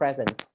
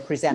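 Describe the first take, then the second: First: The stress is on the first syllable. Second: The stress is on the second syllable. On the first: It is used as a noun. The speaker calls it wrong. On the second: It is used as a verb. The speaker calls it right. "We say present"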